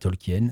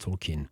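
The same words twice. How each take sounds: First: The name is said the French way. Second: The name is said the English way. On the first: The speaker calls it wrong. "Ça ne se dit pas Tolkien" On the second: The speaker calls it right. "je fais mon snob angliciste. ... ça se dit Tolkien"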